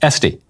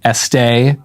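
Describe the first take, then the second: First: The name is given a plain American pronunciation. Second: The name is given a French-style pronunciation. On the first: The speaker calls it right. "but it is Esty" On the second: The speaker calls it wrong. "I was tempted to pronounce it Estee, as in louder"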